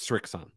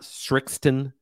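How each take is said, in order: First: The name is said with no t sound. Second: A t sound is added before the last syllable. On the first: The speaker calls it right. "It's Srixon" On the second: The speaker calls it wrong. "It's not Srixton"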